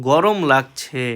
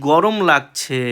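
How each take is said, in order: No difference in how they are said.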